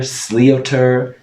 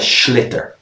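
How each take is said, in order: First: It is said 'sly-oh-ter', following the spelling. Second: It is said 'shlitter', with a 'sh' sound. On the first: The speaker calls it wrong. "I've heard people pronounce it awfully. People pronounce it slioter" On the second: The speaker calls it right. "It's called a schlitter"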